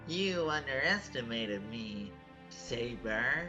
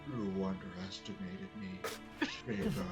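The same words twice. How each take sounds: First: It is said in a normal voice. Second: It is said in a very deep voice.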